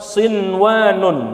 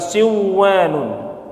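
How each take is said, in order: First: The n sound is kept before the w. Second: The n sound is dropped before the w. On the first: The speaker calls it right. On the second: The speaker calls it wrong.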